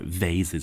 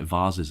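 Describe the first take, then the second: First: It is pronounced with an American accent. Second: It is pronounced with a British accent.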